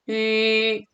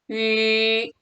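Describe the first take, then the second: Both takes have the same delivery.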